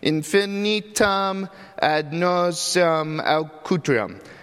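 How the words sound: The words come out hesitant and half-hearted. She cannot really pronounce it yet. "She kind of half-heartedly says them because she can't really pronounce it"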